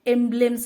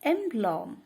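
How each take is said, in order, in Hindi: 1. दूसरा स्वर 'e' जैसा सुनाई देता है। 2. दूसरा स्वर 'o' जैसा सुनाई देता है। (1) "एम्ब्लेम समझते होंगे लेकिन नहीं" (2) "लेकिन नहीं, एम्ब्लॉम"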